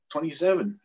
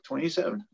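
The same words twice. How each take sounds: First: Recruit's reply. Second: Questioning echo. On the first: Recruit answers captain. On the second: Captain echoes the age as question. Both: Retold or imitated.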